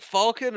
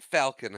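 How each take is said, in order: First: "Falcon" with an open aw vowel; pronounced FAWL-kin. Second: "Falcon" with the short a of cat; pronounced FAL-kin. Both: Shown as a demonstration. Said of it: "is it Falcon or is it Falcon".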